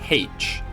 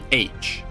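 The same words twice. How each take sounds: First: The letter is said in the Catholic pronunciation. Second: The letter is said in the Protestant pronunciation. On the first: "Catholics would pronounce it H" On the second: The speaker is identified as Protestant. "Protestants would say H"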